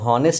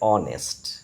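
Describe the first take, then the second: First: The word begins with an h sound. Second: The word begins with a vowel sound. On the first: The speaker calls it wrong. "হনেস্ট লেখা আছে" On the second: The speaker calls it right. "কিন্তু বলতে হবে অনেস্ট"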